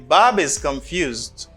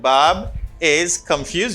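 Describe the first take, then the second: First: The words run together with linking. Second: The words are said separately without linking. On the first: "you say" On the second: "Instead of saying"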